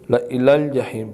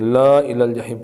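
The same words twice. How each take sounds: First: The la vowel is kept short. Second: The la vowel is stretched long. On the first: The speaker calls it right. "ला को नहीं खींचा जाएगा, बल्कि ला इलल जहीम पढ़ेंगे" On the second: The speaker calls it wrong. "पढ़ना गलत है"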